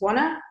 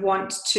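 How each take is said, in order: First: The words are blended into one reduced word. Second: Both words are said fully and separately. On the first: "he says wanna" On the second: "instead of want to"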